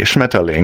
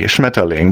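First: The word is said in a calm, neutral tone. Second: The word is said in a calm, neutral tone.

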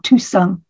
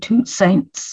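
First: The name is said with a French accent. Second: The name is said with an English accent.

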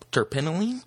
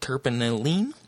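First: The word is said quickly. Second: The word is said slowly. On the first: The speaker calls it right. "There we go. It's a little bit faster there" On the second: The speaker calls it wrong. "Pardon the pronunciation on that"

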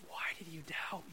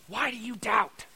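First: It sounds warm and friendly, like a friend. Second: It sounds like a scolding, angry teacher.

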